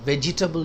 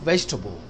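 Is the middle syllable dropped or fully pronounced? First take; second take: fully pronounced; dropped. First: Every syllable is fully pronounced as spelled. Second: The middle vowel is dropped, giving fewer syllables. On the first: The speaker calls it wrong. "vegetable नहीं कहेंगे" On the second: The speaker calls it right. "आप कहेंगे vegetable"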